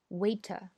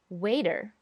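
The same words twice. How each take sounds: First: It is said in a British accent. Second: It is said in an American accent. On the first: "大家想英音应该怎么说呢？" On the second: "美音叫做waiter"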